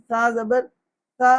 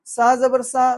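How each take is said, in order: First: "سا" said as a soft lisped tha, tongue between teeth; correct soft tha. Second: "سا" said as plain sa, no lisp; wrong, undistinguished letters. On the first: Teacher showing letters differ in sound, soft lisped tha in "سا". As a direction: say "سا" as tha, not a whistled sa. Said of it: "اصل مقصود آواز میں فرق". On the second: Teacher mimicking people who cannot tell letters apart, "سا" as plain sa. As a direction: flatten tha into ordinary sa in "سا". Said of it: "یہ فرق کرنے پہ لوگ قادر نہیں". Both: Shown as a demonstration.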